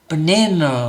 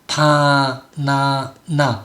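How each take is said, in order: First: The unstressed vowels are reduced to schwa. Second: Every vowel is said full and clear. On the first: "원래대로 소리를 내지 않고" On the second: "규칙대로 발음을 하니까 좋은데"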